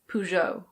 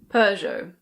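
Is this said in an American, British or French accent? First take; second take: American; British. First: It is said in an American accent. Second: It is said in a British accent. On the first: "In American English, it's usually Peugeot" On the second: "In British English, people say Peugeot"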